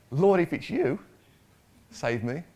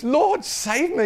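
First: Said in the usual way. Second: High, slow desperate plea for rescue; desperate cry. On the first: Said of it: "No, it's". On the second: Shown as a demonstration. Sinking Peter crying out to Jesus, desperate. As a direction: cry out high and drawn-out like a man going under. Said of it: "He's, he's kinda desperate now".

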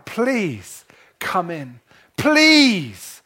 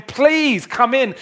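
First: Tearful begging. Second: Higher, slow, tender call of please come in; voice of heaven. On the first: Father begging his eldest son outside the party, tearful. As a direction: plead through tears, then cry out. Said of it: "he's begging his son". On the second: Heaven inviting the listener into the party, slow and tender. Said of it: "Can you hear the voice of heaven saying". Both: Acted.

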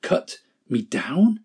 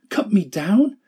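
First: Slow, shaken question; stunned disbelief. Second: Much higher, anguished question; horrified outcry. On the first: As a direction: repeat it as if you can't believe it. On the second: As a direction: fling the question back in horror. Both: Acted. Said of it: "A trembling of great horror shook Bamboo".

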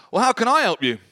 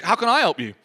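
First: A higher, louder, almost offhand offer of help; blunt matter-of-fact question. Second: Quick, casual throwaway offer; offhand question. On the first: Prophet to desperate widow, matter-of-fact and unexpectedly blunt. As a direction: toss the question out casually, not compassionately. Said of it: "It's really funny". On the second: Preacher retelling Elisha's reply, quick and offhand. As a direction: rattle it off without sympathy. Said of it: "I'd have thought he'd be really compassionate". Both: Retold or imitated.

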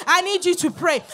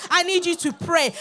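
The two takes are said the same way.

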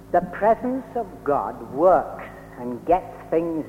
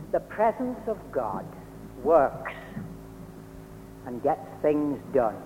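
First: The presence of God works and gets things done said in one slow, joined run; slow steady phrase. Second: The presence of God works, and gets things done, with long pauses between the parts; slow emphatic phrase. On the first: Preacher repeating "The presence of God works and gets things done" to the chapel, slow and even. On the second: Preacher slowly driving home "The presence of God works and gets things done" to the chapel. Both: Shown as a demonstration. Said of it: "repeats the phrase for emphasis".

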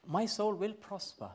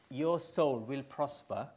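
First: "my" lifted high, then falling; high emphasis on "my", falling through the rest; stress on "my". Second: Said in the usual way. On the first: Shown as a demonstration. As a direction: claim it with a high-pitched "my". Same promise claimed for himself.

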